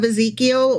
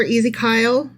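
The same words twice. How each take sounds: First: Said in the usual way. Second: Ezekiel said as "ee-zee-KYLE"; nickname pronunciation. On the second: Shown as a demonstration. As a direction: make the end of Ezekiel rhyme with "mile". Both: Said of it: "I meant to say Ezekiel".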